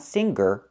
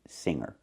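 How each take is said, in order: First: A hard g sound follows the nasal sound. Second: Only the nasal sound is heard, no hard g. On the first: The speaker calls it wrong. "Not singer" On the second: The speaker calls it right. "The sound is in your nose"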